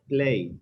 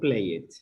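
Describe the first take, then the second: First: The ending adds no extra syllable. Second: The ending is said as an extra syllable. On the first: The speaker calls it right. "you pronounce played" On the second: The speaker calls it wrong. "not play it"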